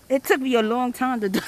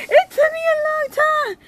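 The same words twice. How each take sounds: First: Said in the usual way. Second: Much higher, squealing repeat after laughing; high-pitched wail. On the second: Real, not acted.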